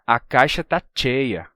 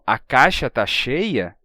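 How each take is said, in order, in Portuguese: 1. Cheia começa com um som duro de ch. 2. Cheia começa com um som suave de sh. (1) "eles dizem" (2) "quando eles dizem uma frase como"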